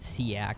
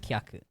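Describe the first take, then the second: First: The word begins with an S sound. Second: The word begins with a K sound. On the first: The speaker calls it wrong. "in my head there's just like no other way to pronounce it properly when I read it in English other than siak" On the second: The speaker calls it right. "the name is kyak"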